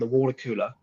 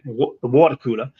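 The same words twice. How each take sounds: First: It is said in an American accent. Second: It is said in a British accent. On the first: "my American accent there" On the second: "even though I'm in the U K"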